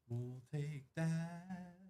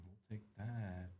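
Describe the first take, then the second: First: Drawn-out sing-song. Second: Said in the usual way. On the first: Real, not acted. Card break host repeating catchphrase.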